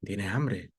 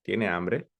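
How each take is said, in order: First: "¿Tiene hambre?" falling on "hambre", a bit softer; statement question, falling end on "hambre"; confirming fall. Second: "¿Tiene hambre?" with the voice rising on "hambre"; open question rise. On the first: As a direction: say "¿Tiene hambre?" like you already think so, pitch dropping. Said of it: "donde yo creo que tiene hambre". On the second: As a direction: ask "¿Tiene hambre?" genuinely, lifting at the end. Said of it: "Una pregunta en general sería como". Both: Shown as a demonstration.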